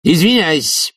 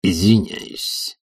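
First: High, brisker "Извиняюсь" falling at the end; interrupting. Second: Slow, drawn-out "Извиняюсь" with a rising end; stocky fourth visitor. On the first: Committee head interrupts his comrade, high falling "Извиняюсь". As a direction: cut in high on "Извиняюсь" and land firmly. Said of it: "перебил его Швондер". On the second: Fourth visitor cuts in on the professor, slow drawn-out "Извиняюсь". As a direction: draw out "Извиняюсь", tentatively lifting the end. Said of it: "похожий на крепкого жука". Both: A narrator's reading.

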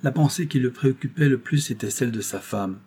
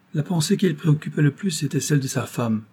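First: Said in the usual way. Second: The repeated line said higher, weight on qui; insistent emphatic repetition of the line; pointed repeat. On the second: A narrator's reading. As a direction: repeat it firmly, ignoring the interruption. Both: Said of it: "répéta-t-il".

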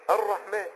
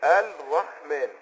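First: الرحمن with the lam merged into a doubled ra, said as arrahman; الرحمن read properly, the ra doubled and no lam heard; الرحمن said the right way, lam swallowed into ra; correct ar-Rahman. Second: الرحمن said slowly as al-rahman, the lam clearly sounded and the ra single; slow faulty الرحمن with an audible lam and no doubled ra; الرحمن read wrongly, lam pronounced and the shadda lost. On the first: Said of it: "هو المفروض يقول ايه". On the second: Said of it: "هو هيظهر اللام يقول". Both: Shown as a demonstration.

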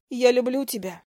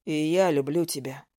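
First: Said in the usual way. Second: Low male voice. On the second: A narrator's reading. Zak answers low.

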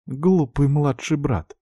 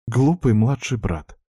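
First: Higher, slow sorrowful reproach; tearful sigh. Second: Slow, held-back reproach; restrained. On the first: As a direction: say it through hurt. Repeated, more tearful. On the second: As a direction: keep the feeling down. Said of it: "сказала она сдержанно". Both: A narrator's reading.

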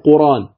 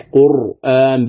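First: "قرآن" run together as quraan, no glottal stop; hamza dropped. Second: "قرآن" with a clear glottal stop before the long aa; hamza fully pronounced. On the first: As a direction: glide from r straight into long aa in "قرآن". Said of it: "ولا يقال قرآن". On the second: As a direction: say "قرآن" as qur-'aan, breaking cleanly at the hamza. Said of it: "تقرأ عند ورش قرآن بالتحقيق". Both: Shown as a demonstration.

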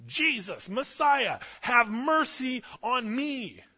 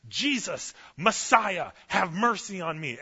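First: High, loud, drawn-out desperate yell; yelled even louder. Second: Loud, high, desperate cry for mercy; desperate scream. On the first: Blind man yells louder at Jesus despite the crowd, straining high yell. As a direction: strain to be heard over a hushing crowd. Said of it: "he yelled louder". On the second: Blind man screams to Jesus over the crowd, loud desperate cry. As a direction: call out over the crowd like your life depends on it. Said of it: "He is screaming out like he's in labor". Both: Retold or imitated.

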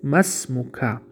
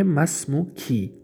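First: ما اسمک with the kaf said "ka", short open a; kaf with fatha. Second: ما اسمکی with the kaf said "ki", short i; kaf with kasra. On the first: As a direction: end اسمک on a clear "-ka" vowel. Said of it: "یعنی که فتحه بود". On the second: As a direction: end اسمکی on a clear "-ki" vowel. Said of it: "کسره است". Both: Shown as a demonstration.

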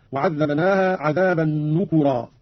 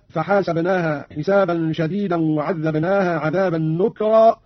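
First: نكرا said "nukurā", u after the k; slow recitation, نكرا in three syllables, "nu-ku-rā"; damma on kaf. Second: Said in the usual way. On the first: Shown as a demonstration. Teacher demonstrating Qalun, نكرا as "nukurā". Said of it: "قرأ قانون بضم الكاف هكذا". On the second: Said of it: "قرأ قانون بضم الكاف".

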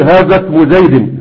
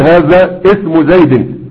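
First: "هذا اسم" run together as hazasmu; linked hamzat wasl. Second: "هذا اسم" split as haza ismu, slowly; wrongly sounded hamza. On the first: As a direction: drop the hamza of "اسم", gliding out of haza. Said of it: "وتقول". (وصل "هذا اسم" بإسقاط الهمزة) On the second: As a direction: sound a glottal i at the start of "اسم" after haza. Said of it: "لا تقل". (قطع همزة "اسم" بعد "هذا") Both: Shown as a demonstration.

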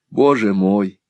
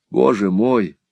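First: Tearful "Боже мой" a bit louder again; tearful cry. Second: High, tearful "Боже мой" falling; tearful cry. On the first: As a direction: repeat "Боже мой" through tears. (всхлип «Боже мой», чуть громче) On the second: (плачущий возглас «Боже мой» с падением) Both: A narrator's reading. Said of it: "воскликнул он".

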